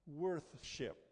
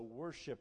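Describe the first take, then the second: First: It is said with a clear 'th' sound. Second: It is said without a 'th' sound. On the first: "the original word in its derivation is worth-ship. Try and say that with me" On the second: "Our lazy speech over time has slurred the absence of the TH, and so worship is how we say it"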